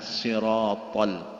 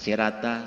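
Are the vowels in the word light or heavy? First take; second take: heavy; light. First: The word is said with heavy, rounded vowels. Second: The word is said with light, open vowels. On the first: It is the Arabic word for the path. The speaker calls it right. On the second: It sounds like the local word for scooping food. The speaker calls it wrong.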